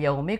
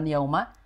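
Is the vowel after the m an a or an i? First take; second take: i; a. First: The m is followed by an i vowel. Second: The m is followed by an a vowel. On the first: The speaker calls it right. "tapi yaumi" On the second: The speaker calls it wrong. "mimnya kasroh bukan fathah, bukan yauma"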